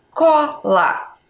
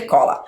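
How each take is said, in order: First: "Cola" split into CO, pause, LA; sounded out aloud. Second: Said in the usual way. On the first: Shown as a demonstration. Teacher showing pupils how to sound out "Cola". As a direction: say "Cola" as two clear, separate beats. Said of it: "fala primeiro em voz alta". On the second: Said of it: "Como que nós vamos escrever cola?".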